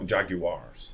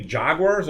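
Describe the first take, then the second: First: Jaguars said in three syllables, JAG-you-ars; British pronunciation. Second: Said in the usual way. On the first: Shown as a demonstration. Host asks which way to say it, British-style JAG-you-ars for Jaguars. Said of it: "Like the British say". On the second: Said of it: "Should we say Jaguars or Jaguars?".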